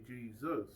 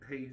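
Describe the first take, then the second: First: Plain English "Jesus", hard stress on the first syllable. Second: "Jesus" said the Latin way, as hay-ZOOS; Spanish-style Jesus. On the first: Teaching a friend how English says Jesus, plainly. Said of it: "that's how we say Jesus". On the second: Showing a friend how Latin speakers say Jesus, hay-ZOOS. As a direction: give "Jesus" the Spanish sound, H at the start and the stress on the end. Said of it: "But if you Latin, you would say". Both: Shown as a demonstration.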